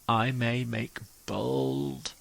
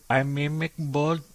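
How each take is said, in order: First: It is said in the speaker's own accent. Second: It is said in an Indian accent.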